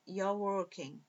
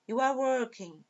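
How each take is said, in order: First: "you're" merged into one syllable; contracted form. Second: Said in the usual way. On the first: Shown as a demonstration. Teacher repeating for students in short form, "you're" as one syllable. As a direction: say "you're working" with you and are joined, softer. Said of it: "forma contraída".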